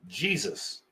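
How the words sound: The name starts with a J sound. This is how non-Latin speakers say it. "Non-Latin speaking people pronounce this like this"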